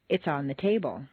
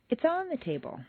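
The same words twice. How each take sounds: First: The stress falls on the word table. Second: The stress falls on the word on.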